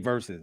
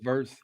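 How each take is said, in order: First: It is said with two full syllables. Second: It is said as one short syllable. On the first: The speaker calls it right. "I should say verses" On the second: The speaker calls it wrong. "I say verse"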